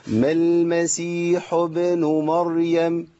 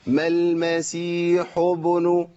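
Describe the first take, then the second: First: "ما المسيح ابن مريم" recited slowly with a smile held; smiling lips demo. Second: "ما المسيح ابن" read slowly with rounded lips, no smile; "ابن" said with lips pushed round like the ḍamma; wrong lip shape demo. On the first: Teacher to students, correcting the lips: smiling recitation. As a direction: keep the smile through "ابن". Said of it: "ده أنت لازم تبتسم". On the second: Teacher demonstrating rounded lips on "ابن". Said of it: "ورايح دماغي". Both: Shown as a demonstration.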